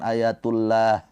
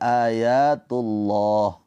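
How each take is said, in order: First: The 'lah' vowel is thin and light, like 'a'. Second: The 'lah' vowel is heavy and full, like 'o'. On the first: The speaker calls it wrong. "bukan ayatullah" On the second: The speaker calls it right. "tapi ayatullah ya pakai o"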